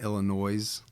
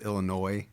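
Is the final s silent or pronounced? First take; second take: pronounced; silent. First: The final s is pronounced. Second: The final s is silent. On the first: The speaker calls it wrong. "And not Illinois" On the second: The speaker calls it right. "You noticed how I said Illinois?"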